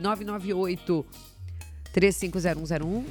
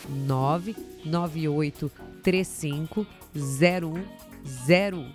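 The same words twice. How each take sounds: First: The number is said at normal speed. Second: The number is said more slowly.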